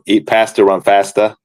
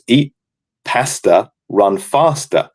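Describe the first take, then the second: First: It is said in an American accent. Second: It is said in the speaker's own accent.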